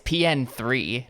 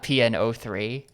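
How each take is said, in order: First: The name is said without any zero. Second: The name is said with a zero included. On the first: The speaker calls it right. "It's P N three" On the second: The speaker calls it wrong. "I've been saying it wrong"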